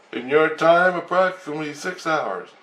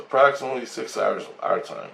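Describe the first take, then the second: First: Raised, halting alien voice; high alien voice. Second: Said in the usual way. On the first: Retold or imitated. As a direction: speak like a lipless alien. Alien answers the question.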